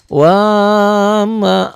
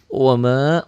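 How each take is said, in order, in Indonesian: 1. Vokal pertama dibaca panjang. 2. Vokal pertama dibaca pendek. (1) "Jangan wa ma" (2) "wa-nya pendek"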